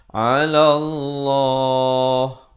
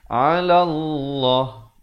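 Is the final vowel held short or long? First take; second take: long; short. First: The final vowel is held for two counts. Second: The final vowel is cut off short. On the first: The speaker calls it right. "jangan waqaf kurang dari dua harakat" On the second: The speaker calls it wrong. "Jangan waqaf dengan 'ala Allah. Itu salah"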